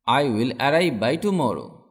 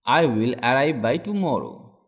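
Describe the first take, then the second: No difference in how they are said.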